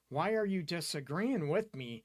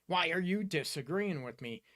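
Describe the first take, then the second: First: The question is asked in a calm, caring tone. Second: The question is asked in a sharp, accusing tone. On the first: The speaker genuinely wants to understand the other person. The speaker calls it right. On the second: The speaker is attacking the other person for disagreeing. The speaker calls it wrong.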